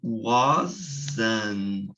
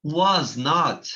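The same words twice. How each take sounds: First: Wasn't said as one word; contracted form. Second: Was not with both words clear; full form. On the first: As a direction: fold was not into wasn't. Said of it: "a gente fala". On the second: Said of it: "acrescentar a palavra not". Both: Shown as a demonstration.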